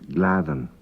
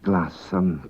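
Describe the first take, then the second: First: The middle consonant is a TH sound. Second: The middle consonant is an S sound. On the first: This is how it is said today. "but now it's pronounced" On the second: This is how it was said in the past. "At one time it would be pronounced"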